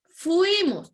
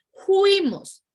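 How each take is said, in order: First: "fuimos" said clearly with a proper F; correct fuimos. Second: "fuimos" loud and high, with a J sound for the F; vulgar juimos. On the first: Teacher models the correct word for class, clean F. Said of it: "y es". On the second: Teacher mocks the vulgar form for students, loud juimos. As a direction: hammer "fuimos" as a rough "juimos". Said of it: "con F lo pasamos a E, a J". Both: Shown as a demonstration.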